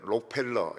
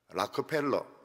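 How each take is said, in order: First: The name is said in three syllables, starting 'rok'. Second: The name is said in four syllables, starting 'rak'. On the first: This is how Koreans usually say it. The speaker calls it wrong. "우리는 록펠러 이렇게 하지만" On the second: This is how Americans say it. The speaker calls it right. "미국 사람들은 ... 락커펠러 이렇게 부릅니다"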